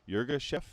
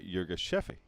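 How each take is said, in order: First: The name ends on a short 'chef' consonant. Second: The name ends with an extra 'feh' vowel. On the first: This is how it is said in the United States. "is what people in the United States say" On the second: This is how it is said in Ethiopia or the UK. "in Ethiopia or in the U K, it's commonly pronounced"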